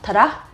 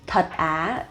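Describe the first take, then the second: First: It is said quickly and smoothly. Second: It is said slowly and carefully.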